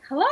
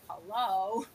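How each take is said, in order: First: It sounds eager and delighted. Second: It sounds reluctant and unenthusiastic.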